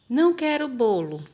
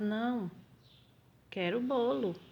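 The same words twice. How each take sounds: First: There is no pause after the first word. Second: There is a pause after the first word. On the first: The speaker does not want the cake. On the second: The speaker refuses something else and wants cake.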